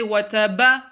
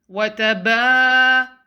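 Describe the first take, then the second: First: The ba syllable is short. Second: The ba syllable is drawn out. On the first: The speaker calls it wrong. "Don't say wataba" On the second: The speaker calls it right. "Prolong the ba"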